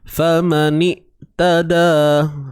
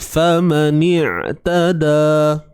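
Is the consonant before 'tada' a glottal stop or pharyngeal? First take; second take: glottal stop; pharyngeal. First: The middle consonant is a plain glottal stop. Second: The middle consonant is a tight throat sound. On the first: The speaker calls it wrong. "ain tu ha, jadi huruf hamzah" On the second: The speaker calls it right. "so ni pun sama"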